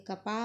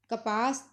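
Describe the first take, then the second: First: कपा with the final s dropped; Punjabi form. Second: कपास with final s; Hindi form. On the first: Teacher showing the Punjabi form, softer open कपा. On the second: Teacher giving the Hindi word, कपास with s. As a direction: close कपास on a clear s. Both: Shown as a demonstration. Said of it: "तो पंजाबी च बोलांगे".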